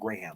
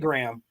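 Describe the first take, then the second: First: The name is said the British way. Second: The name is said the American way. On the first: "going up to British, they say a version of Graham" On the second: "Americans say Graham"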